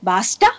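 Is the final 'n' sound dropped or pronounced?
dropped. The word ends without the final n. "బాస్టన్ based accent లో వాళ్ళు last words మింగేస్తారు"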